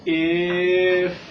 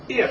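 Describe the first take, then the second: First: Loud, long-held sounds; slow model. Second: "If" short and quick; said fast. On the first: Teacher says listen to a new word, slow and sustained. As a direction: stretch "If" right out, holding each sound. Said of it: "I will say it slow". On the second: Teacher shows Paul the fast way, short and quick. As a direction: say it in one brief burst. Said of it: "Say it fast". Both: Shown as a demonstration.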